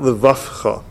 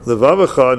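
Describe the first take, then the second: First: The middle consonant is an f sound. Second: The middle consonant is a v sound. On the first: The speaker calls it wrong. "not levavcha" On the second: The speaker calls it right. "Make sure the vase is a vase and not a fey"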